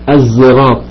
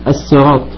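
First: The word begins with a z sound. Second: The word begins with a plain s sound. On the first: "وممكن تنطقها بالزاي" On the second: "ممكن العرب تنطقها بالسين"

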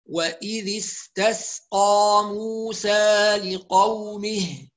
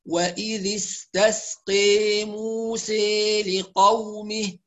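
First: The long a vowels are fully open. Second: The long a vowels lean strongly toward i. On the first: "اللي هيقرأ بالفتح لازم يحافظ على الفتح جيدا" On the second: "الذي يقرأ بالإمالة يضبط الإمالة"

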